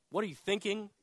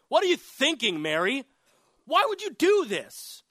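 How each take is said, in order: First: Said in the usual way. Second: High, loud, indignant rebuke; scolding. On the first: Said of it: "when it came time to tell her". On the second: Acted. Disciples rebuking Mary over the ointment, loud acted scolding. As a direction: scold her in disbelief, voice jumping up. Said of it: "And they scolded her".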